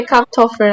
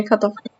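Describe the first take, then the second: First: Kartoffel with a P sound before the T; Kartoffel, first syllable closed as "Kap"; rejected pronunciation. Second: Kartoffel with an open first syllable, "Ka-toffe"; own pronunciation. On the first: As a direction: say Kartoffel as "Kaptoffel", the way you don't say it. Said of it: "I don't say Kartoffel". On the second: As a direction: say Kartoffel your own way, as "Katoffa", no R. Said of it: "I say Kartoffel". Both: Shown as a demonstration.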